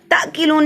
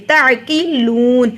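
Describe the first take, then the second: First: "تعقلون" as "takilun", no throat sound; missing ain. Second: "تعقلون" slowly as ta'-qiluun, throat ain and long uu; clear ain. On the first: Teacher showing the mistake, "تعقلون" without its ain. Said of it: "تعقلون نہیں پڑھنا". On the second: Teacher correcting learners, "تعقلون" with ain, drawn out. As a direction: voice the ain, then draw out the end of "تعقلون". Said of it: "عین پڑھیں گے". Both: Shown as a demonstration.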